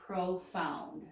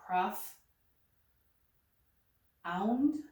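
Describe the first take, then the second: First: "profound" said slowly as pro-found, open first syllable; right syllable split. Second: "prof ... ound" broken after the f, long pause between; wrong syllable split. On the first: Teacher correcting the division of the word, right syllable split. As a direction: sound out "profound" as "pro" plus "found", joined up. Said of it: "that sounds much better". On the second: Teacher testing where to divide the word, wrong syllable split. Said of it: "that doesn't sound right". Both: Shown as a demonstration.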